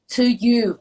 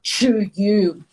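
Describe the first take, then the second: First: It is said with a light, soft sound. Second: It is said with a heavy, hard sound. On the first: The speaker calls it right. "make a very light sounds" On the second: The speaker calls it wrong. "not to you"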